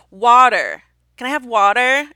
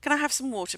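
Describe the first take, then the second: First: WATER with American vowels and R, loud; put-on American accent. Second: Said in the usual way. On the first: British diner making a waiter understand, put-on American accent. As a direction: say water loudly in exaggerated American. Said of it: "have to then say". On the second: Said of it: "asking for water".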